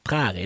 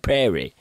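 First: The word is pronounced with Norwegian sounds. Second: The word is pronounced with English sounds. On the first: "sånn som vi uttaler prærien" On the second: "de sier prairie"

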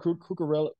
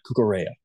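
First: The double L is sounded as an L. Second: The double L is sounded as a Y. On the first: "my American's coming out" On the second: "I got to work on that"

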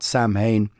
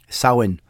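First: It is pronounced the English way, as spelled. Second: It is pronounced the Irish way. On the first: The speaker calls it wrong. "not Samhain" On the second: The speaker calls it right. "That's how you say it in Irish"

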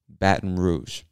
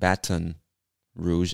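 First: The T in Baton is dropped. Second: The T in Baton is clearly pronounced. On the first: "most of us don't really pronounce the T in Baton" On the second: "I know it looks like Baton Rouge, and I guess you could say it that way"

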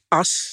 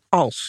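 First: The word is said without the l sound. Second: The word is said with a clear l sound. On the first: This is lazy Amsterdam speech. The speaker calls it wrong. "as, dat is verbrande turf" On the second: This is neater, more proper speech. The speaker calls it right. "Als, Wil"

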